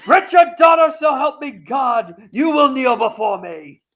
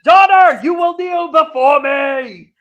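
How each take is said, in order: First: Booming demon lord. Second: Slow, loud, high commanding shout; booming demon lord. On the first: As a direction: swear an oath like a tyrant. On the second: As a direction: thunder the demand like a tyrant. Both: Retold or imitated. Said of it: "and he says".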